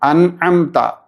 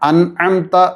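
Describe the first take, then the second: No difference in how they are said.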